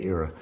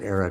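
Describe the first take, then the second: First: The name is pronounced in the less clear way. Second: The name is pronounced in the clearer way. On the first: This is the pronunciation the speaker decided against. The speaker calls it wrong. "than if I say Era" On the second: This is the pronunciation the speaker proposed. The speaker calls it right. "I think we should pronounce it Era because it'll be clearer"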